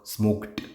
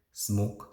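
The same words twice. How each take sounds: First: "smoked" with a crisp released t; E D stressed. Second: "smoke" ending on k, no t. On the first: Teacher distinguishing smoked from smoke, ending stressed. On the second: Teacher distinguishing smoke from smoked, plain k ending. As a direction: say "smoke" bare, without a t. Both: Shown as a demonstration. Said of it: "distinguish between smoke and smoked".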